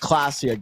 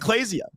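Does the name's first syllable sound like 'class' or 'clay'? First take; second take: class; clay. First: The first syllable sounds like 'class'. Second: The first syllable sounds like 'clay'. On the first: The speaker calls it right. "It's Classia" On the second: The speaker calls it wrong. "that was the incorrect pronunciation"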